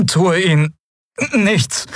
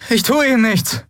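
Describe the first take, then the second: First: High, slow, lilting "Tue ihnen nichts" with a flat falling "tue"; melodic inhuman voice. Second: Put-on pleading young man. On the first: Acted. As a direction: echo the words in a strange singsong. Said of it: "sagte das Wesen auf seinem Rücken". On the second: Kai reassures stranger.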